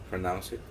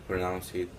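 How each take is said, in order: No difference in how they are said.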